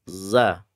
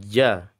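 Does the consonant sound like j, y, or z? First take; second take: z; j. First: The consonant is a buzzing z sound. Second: The consonant is a j sound. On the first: The speaker calls it right. "membaca huruf zayyun" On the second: The speaker calls it wrong. "bacanya ja ... Keliru jim"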